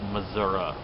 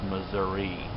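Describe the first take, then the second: First: The word ends with an 'ah' sound. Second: The word ends without an 'ah' sound. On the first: The speaker calls it wrong. "call it Missouri. There is no A" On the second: The speaker calls it right. "There is no A. It's Missouri"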